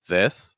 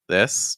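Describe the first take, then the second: The two takes are said the same way.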